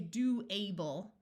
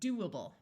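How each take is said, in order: First: The suffix has a full, stressed long A vowel. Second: The suffix has a weak, muffled uh vowel. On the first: The speaker calls it wrong. "we don't say do-able" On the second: The speaker calls it right. "we say doable"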